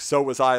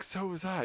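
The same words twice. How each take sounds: First: It is said in an angry, defiant tone. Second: It is said in a sad, hurt tone.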